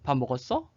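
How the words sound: It is said with question intonation. The speaker is asking whether someone ate. "하면 의문문이고 물어보는 거"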